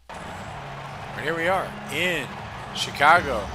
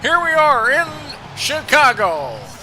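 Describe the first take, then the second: First: It is said in the speaker's own voice. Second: It is said in an imitated announcer's voice.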